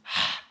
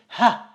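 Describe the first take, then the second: First: The h is a harsh sound from the throat. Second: The h is a plain, soft breathy sound. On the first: This is the real Arabic letter. "This letter is ha" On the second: This is how a non-Arabic speaker would say it. "you most likely will pronounce it as H. You will say ha"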